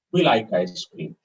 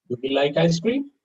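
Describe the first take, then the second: First: "We like ice cream." low, falling to "cream"; statement intonation. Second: "Do we like ice cream?" climbing steadily to "cream"; question intonation. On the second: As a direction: ask it with "cream" lifted at the end. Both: Shown as a demonstration. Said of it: "question and a statement".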